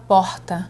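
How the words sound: The R sounds like a forced television-style accent. The speaker is taking on an identity not their own. "na televisão ela resolve falar porta"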